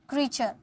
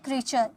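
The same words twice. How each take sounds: Both takes have the same delivery.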